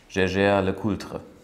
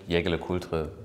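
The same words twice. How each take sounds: First: The name is pronounced the French way. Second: The name is pronounced the German way. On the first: "Das ist das Original?" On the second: "wenn man es europäisch und jetzt nicht französisch ausspricht"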